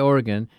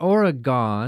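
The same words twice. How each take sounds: First: It is said with the local Oregon pronunciation. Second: It is said with a Wisconsin-style pronunciation. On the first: The speaker calls it right. "say it right" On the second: The speaker calls it wrong. "Not Oregon. ... Like you sometimes say here in Wisconsin"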